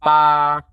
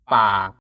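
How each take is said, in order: First: PA held level at middle pitch. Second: PA pitched low. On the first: Teacher comparing once more, level mid tone. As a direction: keep "Pa" long and even. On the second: Teacher comparing once more, low tone. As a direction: drop "pa" low. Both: Shown as a demonstration. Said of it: "Compare it with the mid tone".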